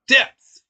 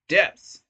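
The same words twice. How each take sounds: First: The word is said more loudly. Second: The word is said at normal volume.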